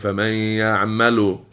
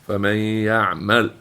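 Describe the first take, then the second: First: The verb ends with a short u vowel. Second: The verb ends with no final vowel. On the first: The speaker calls it wrong. "You're not saying" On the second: The speaker calls it right. "but you're saying"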